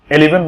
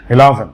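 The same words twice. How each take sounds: First: এলিভেন starting with e and an i in the middle; এলিভেন, the common mistaken way; wrong eleven. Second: ইলেভেন starting with i and an e in the middle; ইলেভেন, the proper English vowels; correct eleven. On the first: Teacher shows students the mistaken এলিভেন. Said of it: "এলিভেন বলে অনেকে". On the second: Teacher shows students the right ইলেভেন. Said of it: "এটা উচ্চারণটা হবে". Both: Shown as a demonstration.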